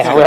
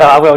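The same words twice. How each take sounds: First: Said in the usual way. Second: Much louder, playfully emphatic; louder repeat. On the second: Shown as a demonstration. Granting a friend's request, a louder playful repeat. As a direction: say it again, loud, on request. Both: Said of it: "Can you say that a whole lot more, please?".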